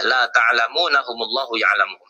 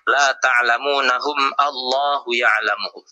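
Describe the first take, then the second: First: Allahu runs straight on from the word before. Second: Allahu starts separately with its own vowel. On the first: The speaker calls it right. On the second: The speaker calls it wrong.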